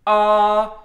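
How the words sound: The vowel starts with a hard, catchy edge. "glottal, where your voice starts early, ... you get kind of that edge on the sound"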